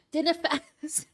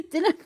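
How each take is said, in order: First: A half-hearted, lightly Scottish "dinner fest", slightly higher; failed Scottish accent. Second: "Dinner" breaking into a laugh, higher and louder; laughing at own attempt. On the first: Pretend. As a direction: try a Scottish accent and fall short. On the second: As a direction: give up on the Scottish accent, laughing. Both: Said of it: "I can't do an accent".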